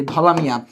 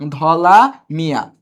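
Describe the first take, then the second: First: Said in the usual way. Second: ধলা Mia drawn out slowly, word by word; ধলা Mia at half speed; slow repeat. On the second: Shown as a demonstration. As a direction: stretch out ধলা and Mia for the class.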